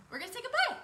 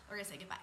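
First: High, lilting goodbye rising at the end; high singsong. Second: Soft, low goodbye, falling away; low and hushed. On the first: Coach reminds viewers to sign off, high singsong. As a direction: lift it way up, playfully. Same line repeated in contrasting pitch. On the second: Coach repeats the sign-off reminder, low and hushed. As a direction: bring it right down, quietly. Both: Shown as a demonstration.

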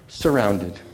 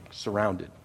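First: "surrounded." landed low but louder, falling; emphasis on surrounded. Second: Said in the usual way. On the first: Shown as a demonstration. Pastor stressing "surrounded." to his congregation, low and louder. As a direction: lean hard into "surrounded.". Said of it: "that was God's emphasis on that last word". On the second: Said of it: "that last word".

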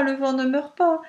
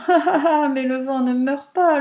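First: A lighter mocking echo of le vent ne meurt pas; teasing repeat. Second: Mocking laughter, higher and louder; laughing reply. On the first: Pierrot repeats his taunt to the wind, teasing. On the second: Pierrot laughs at the pleading wind, mocking. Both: A narrator's reading. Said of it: "répondit en riant".

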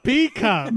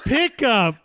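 First: "P cup" said as the letter P then cup; P cup pronunciation. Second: Said in the usual way. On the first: Shown as a demonstration.

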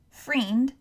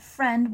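First: "friend" said as "freend"; "friend" rhyming with "fiend"; misspelt pronunciation. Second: Said in the usual way. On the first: Shown as a demonstration. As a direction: say "friend" with a long ee, as if spelt freind. Reads out the misspelling "freind.

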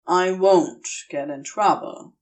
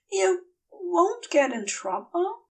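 First: Calm him down; reassuring Crowley. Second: Worried Aziraphale. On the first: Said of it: "Crowley reassures him". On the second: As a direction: ask it small and worried. Aziraphale asks again. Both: Acted.

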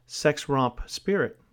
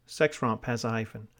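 First: "sex romp" spoken slowly and distinctly for students to write down; slow dictation. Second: Said in the usual way. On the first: Shown as a demonstration. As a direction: read out slowly, word by word, for dictation.

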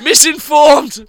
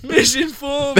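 First: Slow, loud, high mocking cry; hammed-up outraged yell; mock conspiracy rant. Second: High, shouted echo of the word; hammed-up outraged cry; mock conspiracy rant. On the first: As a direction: shout it like a ranting truther. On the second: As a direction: throw it out again, mocking. Repeated mocking cry.

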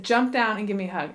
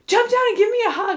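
First: Said in the usual way. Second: Pleading plea. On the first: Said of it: "And I said". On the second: Retold or imitated. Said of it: "I'm gonna start crying right now".

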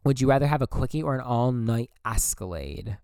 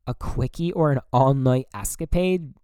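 First: "escalade" said like the car, es-ka-LADE; misread word. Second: "escapade" said properly, es-ka-PADE; corrected word. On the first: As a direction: slip and say "escalade" with an L sound. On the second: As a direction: fix it to "escapade" with a P sound. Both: Real, not acted. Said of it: "Or escapade".

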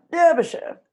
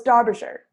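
First: British pronunciation. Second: Derbyshire said with DAR as first syllable; American-sounding DAR-buh-sher for Derbyshire; corrected pronunciation. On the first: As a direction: say Derbyshire like a British period drama. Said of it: "I know that because I watch Pride and Prejudice". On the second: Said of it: "I go to Dar-, oh, it's". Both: Shown as a demonstration.

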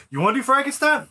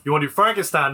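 First: Pitched well up on "Frankenstein?", rising in disbelief; surprised question. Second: Said in the usual way. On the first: Real, not acted. Co-host double-checks which film, with a surprised rise. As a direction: ask "you wanna do Frankenstein?" high, startled.

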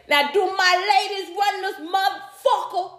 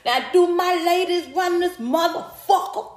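First: High-pitched hype call to the crowd; comedian's crowd hype. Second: High, rising hype call in a put-on voice; comedian's crowd hype. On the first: Retold or imitated. Imitating a comedian firing up the women in the crowd, high hype call. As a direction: work the room like a stand-up hyping the women. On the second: Repeating the comedian's line to the crowd, high rising hype call. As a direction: rev up the ladies like the comic did on stage. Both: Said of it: "she used to get up there and say".

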